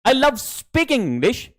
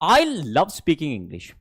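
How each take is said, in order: First: The third word carries the stress. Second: The first word carries the stress. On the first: The speaker likes speaking, maybe not reading or writing. "कि मुझे सिर्फ English बोलना पसंद है" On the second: Only the speaker likes speaking English, nobody else. "जब आप आई पे stress डालते हो"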